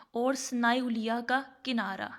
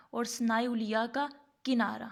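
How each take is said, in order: Both takes have the same delivery.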